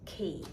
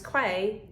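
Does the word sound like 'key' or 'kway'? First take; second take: key; kway. First: It is said with a plain 'k' sound, like 'key'. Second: It is said with a 'kw' sound, like 'kway'. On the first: The speaker calls it right. "actually, it is key" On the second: The speaker calls it wrong. "I said it was quay"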